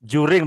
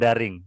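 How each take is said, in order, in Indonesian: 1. Kata ini dimulai dengan bunyi J. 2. Kata ini dimulai dengan bunyi D biasa. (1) "Juring bukan daring ya" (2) "bukan daring ya"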